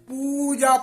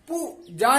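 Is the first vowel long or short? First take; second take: long; short. First: The first vowel is held long. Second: The first vowel is kept short. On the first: The speaker calls it right. "पूजा पढ़ेंगे" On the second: The speaker calls it wrong. "पूजा नहीं पढ़ेंगे"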